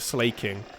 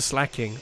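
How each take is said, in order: First: The first syllable sounds like 'slay'. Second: The first syllable sounds like 'slack'. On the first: The speaker calls it wrong. "I always call it a slaking" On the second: The speaker calls it right. "No, it's a slacking"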